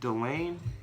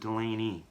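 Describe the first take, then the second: First: The name ends on the lane sound. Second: The name ends with a long ee sound. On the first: "stop at lane" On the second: "a long E"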